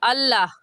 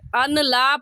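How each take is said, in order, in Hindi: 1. n को दोहरे l में गिरा दिया जाता है। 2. n को l से पहले बोला जाता है। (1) "सही है अल्लाह" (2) "अन ला पढ़ना गलत है"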